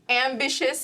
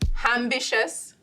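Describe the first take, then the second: First: The word begins with a plain vowel sound. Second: The word begins with an added H sound.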